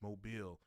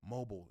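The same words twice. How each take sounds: First: It uses the local pronunciation of the name. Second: It uses the outsider pronunciation of the name. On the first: The speaker knows how residents say it. The speaker calls it right. "it's Mobile" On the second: The speaker is unfamiliar with the city. The speaker calls it wrong. "You don't say Mobile"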